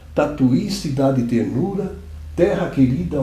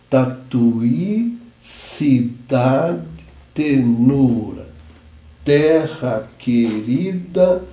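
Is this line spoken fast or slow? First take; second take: fast; slow. First: It is spoken faster with a rhythmic delivery. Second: It is spoken slowly, word by word. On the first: "se nós falarmos um pouco mais rápido, nós entramos no setor de declamação" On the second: "eu falei mais lento para dar tempo de marcar a sílaba"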